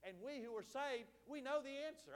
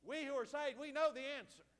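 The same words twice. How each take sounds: First: Said in the usual way. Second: Louder, insistent preacher's call; emphatic repeat. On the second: Real, not acted. Preacher prompting the congregation for an amen, loud and emphatic. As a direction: drive it home to rouse a response.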